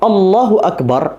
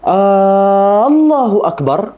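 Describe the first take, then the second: First: The first vowel of Allah is short. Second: The first vowel of Allah is drawn out long. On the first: It is a statement that God is the greatest. The speaker calls it right. "artinya adalah Allah Maha Besar" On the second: It asks whether God is the greatest. The speaker calls it wrong. "maka artinya berubah. Jadi pertanyaan"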